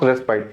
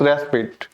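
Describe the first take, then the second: First: Respite ending like "spite"; wrong pronunciation. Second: Respite ending like "spit"; correct pronunciation. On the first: Teacher warning students off the wrong form, respite as "res-pite". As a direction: say respite with a long "eye" vowel. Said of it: "but it not pronounce". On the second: Teacher correcting students, respite as "res-pit". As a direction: say respite with a short final "i". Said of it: "it's respite". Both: Shown as a demonstration.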